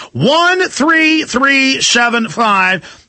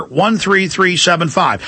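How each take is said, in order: First: "One three three seven five" high and very slow, each digit separate; emphatic repeat. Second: Said in the usual way. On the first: Real, not acted. Host drumming in the order number, "One three three seven five" slowly stressed.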